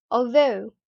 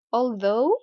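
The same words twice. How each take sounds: First: "although" ending in an uh-oo glide; British long O. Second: "although" ending in a rounded oh-oo glide; American long O. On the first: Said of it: "in the British accent". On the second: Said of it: "in American English". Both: Shown as a demonstration.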